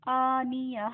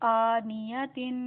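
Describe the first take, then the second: First: The word stops on a clear h sound. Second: The word ends with a nasal '-tin' ending. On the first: The reader stops on this word. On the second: The reader continues without stopping.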